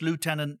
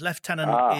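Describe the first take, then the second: First: It is said with an American pronunciation. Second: It is said with a British pronunciation. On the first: "Lieutenant is very American" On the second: "Lieutenant is very English"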